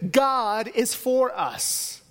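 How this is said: The stress is on "God".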